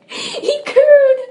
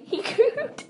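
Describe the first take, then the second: First: Much higher and louder, giggling; mock cooing, laughing. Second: Said in the usual way. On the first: Real, not acted. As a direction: ham it up while laughing.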